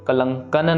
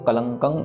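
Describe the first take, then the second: First: The word ends with a clear n sound. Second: The word ends in a nasal hum. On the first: The speaker calls it wrong. "कलंकन ना हो जाए" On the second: The speaker calls it right. "नाक में ही आवाज खत्म होनी चाहिए"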